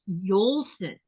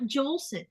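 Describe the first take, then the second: First: The name begins with a Y sound. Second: The name begins with a J sound. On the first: The speaker calls it right. "it's Yolson" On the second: The speaker calls it wrong. "It's not Jolson"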